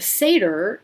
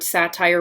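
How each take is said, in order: First: It sounds different from the genre word satire. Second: It sounds the same as the genre word satire. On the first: The speaker calls it right. "But a satyr is this um, mythological Greek pan-like creature" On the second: The speaker calls it wrong. "if we had pronounced this word satire, we would have been thrown out"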